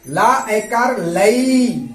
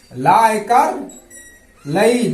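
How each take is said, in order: First: Very slow, stretched syllables; very slow sounding out. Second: Said in the usual way. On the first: Shown as a demonstration. Teacher stretching the syllables slowly for pupils. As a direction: draw out each syllable for beginners. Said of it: "तो क्या होगा". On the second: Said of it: "इसे जल्दी पढ़ेंगे".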